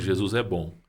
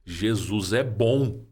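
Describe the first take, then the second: First: It is said in a normal voice. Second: It is said in a raised, high voice.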